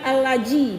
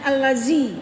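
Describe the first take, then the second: First: The middle consonant is a j sound. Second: The middle consonant is a soft z-like sound. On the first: The speaker calls it wrong. "jangan allaji dibaca ya" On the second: The speaker calls it right. "dengan allazi, jangan kuat"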